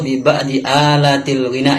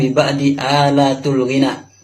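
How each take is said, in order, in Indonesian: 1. Kata alat diakhiri dengan vokal i. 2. Kata alat diakhiri dengan vokal u. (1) "yang benar"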